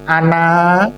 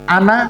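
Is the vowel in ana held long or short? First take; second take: long; short. First: The vowel in ana is drawn out long. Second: The vowel in ana is kept short. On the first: The word has no meaning. The speaker calls it wrong. "kalau dipanjangkan nggak punya arti" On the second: The word means I. The speaker calls it right. "ana saya"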